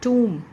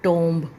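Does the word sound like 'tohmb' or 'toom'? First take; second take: toom; tohmb. First: It has an 'oo' vowel and no b. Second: It has an 'oh' vowel and a final b. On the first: The speaker calls it right. "इसका pronunciation ... होता है, टूम" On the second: The speaker calls it wrong. "Mostly आप लोग करते हो टोम्ब"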